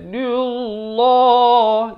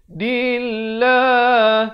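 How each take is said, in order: First: The L sound is thick and heavy. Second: The L sound is thin and light. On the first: The speaker calls it wrong. "Itu salah. Itu tebal" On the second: The speaker calls it right. "Yang betulnya dillah"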